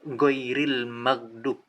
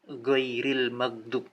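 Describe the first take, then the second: No difference in how they are said.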